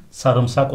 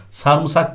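First: SARIMSAK with ı after r; correct pronunciation. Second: SARIMSAK as "sarmısak"; wrong pronunciation. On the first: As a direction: say sarımsak as sa-rım-sak. (sarımsak doğru, "sa-rım") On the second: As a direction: say sarımsak with ı after m. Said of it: "değil". (sarımsak yanlış, "sarmısak") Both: Shown as a demonstration.

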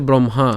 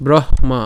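First: ব্রহ্মা run together as "bromha"; common pronunciation. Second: ব্রহ্মা split as "broh-ma"; h sounded first. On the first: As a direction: say ব্রহ্মা with "m" before "h". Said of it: "যেমন আমরা উচ্চারণ করি". (ব্রহ্মা একটানা, "ব্রমহা") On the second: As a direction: breathe out the "h", then land on "ma". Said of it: "হয়ের উচ্চারণটা আগে হচ্ছে". (ব্রহ্মা, আগে হ, তারপর মা) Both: Shown as a demonstration.

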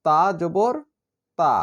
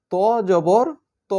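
First: "তা" said as a light, thin t with an open a; "তা জবর তা" light and thin, vowel drawn a little; thin letter. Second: "ত" said as a heavy, full-mouthed emphatic t, with no long a; heavy emphatic "ত", short vowel; thick letter. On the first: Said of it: "তা হচ্ছে পাতলা হরফ". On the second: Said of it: "ত হচ্ছে মোটা হরফ". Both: Shown as a demonstration.

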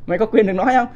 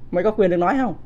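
Both takes have the same delivery.

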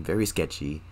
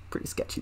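First: Said in the usual way. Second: Hushed whisper, unvoiced. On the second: Real, not acted. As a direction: say it under your breath. Repeated, whispered.

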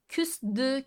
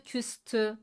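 First: Küstü said like küsdü; wrong soft d. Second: Küstü with a crisp t; correct hard t. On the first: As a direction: say Küstü with a voiced d. (yanlış, yumuşak d ile) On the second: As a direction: say küstü with a sharp t. (doğru, sert t ile) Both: Shown as a demonstration. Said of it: "Dört D değildir".

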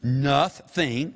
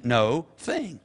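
First: NOTHING as one word, NUTH-THING; joined as one word. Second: NO THING as two separate words; split into two words. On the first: Showing the congregation the word, joined as one. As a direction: say NOTHING with both syllables sounded, no gap. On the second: Showing the congregation the word's parts, split in two. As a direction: say NO with a long O, then THING apart. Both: Shown as a demonstration. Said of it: "made up of two words".

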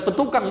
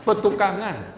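First: "petukang" cut short without the final -an; wrong short name. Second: "Petukangan" with the final -an sounded; high, corrective "Petukangan" with its full ending; corrected full name. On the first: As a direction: say "petukang", ending on the ng. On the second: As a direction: say all of "Petukangan", ending -ngan. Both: Shown as a demonstration. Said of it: "Bukan petukang, bukan. Petukangan".

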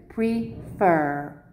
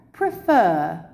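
First: "Prefer" broken in two, pre, then fer; split into syllables. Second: Said in the usual way. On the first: Shown as a demonstration. Teacher shows the two syllables, "Prefer" split as pre-fer. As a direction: separate the two syllables of "Prefer" with a small gap. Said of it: "I've separated it for you". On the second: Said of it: "it's two syllables".

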